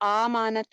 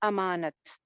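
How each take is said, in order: First: The first vowel is drawn out long. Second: The first vowel is short. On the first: The speaker calls it wrong. "इसको आमानत नहीं हम कहते" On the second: The speaker calls it right. "अमानत होता है"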